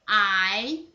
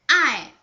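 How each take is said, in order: First: The pitch rises from mid to high. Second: The pitch falls sharply from high.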